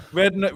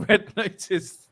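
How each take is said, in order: First: Said in the usual way. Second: Slow, higher stress on Red; slow emphatic naming of Red Notice. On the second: Real, not acted.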